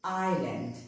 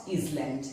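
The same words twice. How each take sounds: First: "island" as eye-lund; "island" with no S sound; silent S. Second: "island" wrongly as iz-land; S sounded. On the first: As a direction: leave the S out of "island". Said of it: "but it is". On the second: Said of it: "It is not island". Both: Shown as a demonstration.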